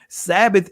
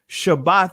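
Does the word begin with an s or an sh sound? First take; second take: s; sh. First: It begins with s and ends in th. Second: It begins with sh and ends in t. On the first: This is the Greek form of the word. The speaker calls it wrong. "Sabbath is a Greek pronunciation" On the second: This is the original Hebrew form of the word. The speaker calls it right. "Shabbat is the actual pronunciation"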